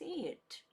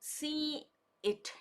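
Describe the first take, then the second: First: The words are linked with a y sound between. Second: The two words are said separately, with a break. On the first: The speaker calls it right. "ಇಂಗ್ಲೀಷಲ್ಲಿ ಫಾಸ್ಟಾಗಿ ಮಾತಾಡುವಾಗ" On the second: The speaker calls it wrong. "ಸಿ ಇಟ್ ಹೇಳೋಲ್ಲ"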